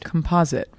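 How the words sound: It is pronounced the American way. "So that's why you say"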